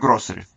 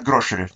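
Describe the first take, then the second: First: The middle consonant is an s sound. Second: The middle consonant is an sh sound. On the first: The speaker says it this way. "Я говорю «гроссери»" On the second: Some people say it this way. "некоторые говорят «грошери»"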